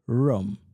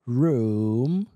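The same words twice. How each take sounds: First: The vowel is a shorter 'o'-like sound. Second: The vowel is a long 'oo' sound. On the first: "со звуком о" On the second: "с длинным у"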